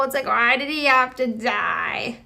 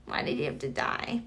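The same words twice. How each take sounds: First: Said in the usual way. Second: Breathy whisper, much lower and softer; whispered lament to herself. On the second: Shown as a demonstration. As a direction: hush it like a secret grief. Repeats the lament, now whispered.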